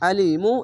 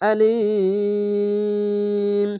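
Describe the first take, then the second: First: The long i is held for one beat. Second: The long i is held for three beats. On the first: "এক আলিফ টেনে পড়বেন" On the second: "তিন আলিফ টেনে পড়তে হবে"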